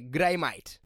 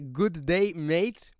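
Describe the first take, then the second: First: It is said with an Australian accent. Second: It is said without an Australian accent.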